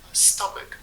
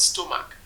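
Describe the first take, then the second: First: It is said the British broadcast way. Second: It is said in a local, non-British way. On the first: The speaker calls it right. "why did they pronounce it as stomach" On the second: The speaker calls it wrong. "not stomach"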